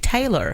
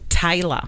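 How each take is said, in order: First: It is said in an American accent. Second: It is said in an Australian accent. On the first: "in the U S people say" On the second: "the way we pronounce it"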